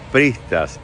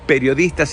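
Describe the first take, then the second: First: The middle syllables are dropped from the word. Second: Every syllable of the word is clearly pronounced. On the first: The speaker calls it wrong. "Dije pristas" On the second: The speaker calls it right. "es periodistas"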